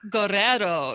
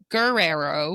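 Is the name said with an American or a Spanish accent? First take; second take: Spanish; American. First: The name is said with a Spanish accent. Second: The name is said with an American accent.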